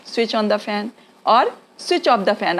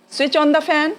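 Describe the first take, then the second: First: Very slow, each word laid out clearly; slow teaching demo. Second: Said in the usual way. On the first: Shown as a demonstration. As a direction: spell the phrase out slowly for learners. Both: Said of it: "बोलिए".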